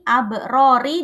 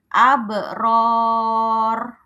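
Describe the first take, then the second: First: The word ends with a final i vowel. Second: The word ends on a heavy r sound. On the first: The reader keeps going without stopping. "Roknya ini aslinya berharokat kasroh" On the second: The reader stops at this point. "kalau dia berhenti di sini"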